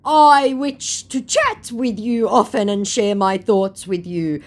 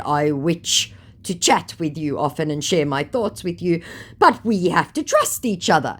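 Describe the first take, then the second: First: "wish" said lisped as "witch", slow and higher; mock scammer lisp. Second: Said in the usual way. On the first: Shown as a demonstration. Imitating the scammer's lisp, "wish" said as "witch". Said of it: "that wasn't me lisping". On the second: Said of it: "He actually said".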